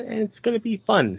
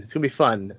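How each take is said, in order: First: Squeaky high voice; high-pitched. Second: Said in the usual way. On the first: Pretend. Repeats line in two pitches.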